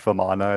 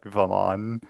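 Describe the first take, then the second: First: The name ends with a final 'a' vowel. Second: The name ends on the 'n' consonant. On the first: The speaker calls it wrong. "it's not like Vamana" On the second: The speaker calls it right. "it's like Vaman"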